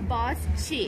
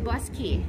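First: The 'chi' is said with a ch sound. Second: The 'chi' is said with a k sound. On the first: The speaker calls it wrong. "เห็นตัวสะกดก่อนเราจะอ่านว่า" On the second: The speaker calls it right. "มันอ่านว่า"

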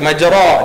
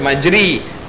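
First: The vowel after the r is an open a. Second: The vowel after the r is a close i. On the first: "Dia tak baca majra" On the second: "dia tak baca majri"

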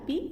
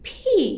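First: The p is plain, without a puff of air. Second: The p has a strong puff of air. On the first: The speaker calls it wrong. "আমরা পি বলবো না" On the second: The speaker calls it right. "সঠিক উচ্চারণ হচ্ছে ফি, ফ ফ ফি"

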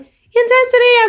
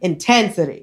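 First: It is said lightly, with the voice brought up. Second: It is said intensely, with the voice dropped low.

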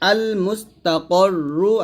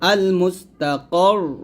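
First: The last word ends with a -ru syllable. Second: The last word ends on a bare r sound. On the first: The reading continues without stopping. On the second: The reader stops at this word.

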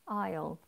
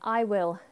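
First: It is said as one contracted syllable. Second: It is said as two full words. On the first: "Aisle, like walking down an aisle"

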